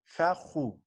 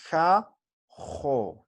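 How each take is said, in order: First: "ja, ju" ending on a quieter u; mispronounced with U. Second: "ja, jo" split wide by a pause, ending in open o; pronounced with O. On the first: Teacher showing it is not so, "ja, ju" with final u. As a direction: say "ja", then a dropped "ju" with u. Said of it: "No así". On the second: Teacher repeating the model for students, "ja, jo" with final o. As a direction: sound out "ja", pause, then "jo". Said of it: "O voy a decir". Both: Shown as a demonstration.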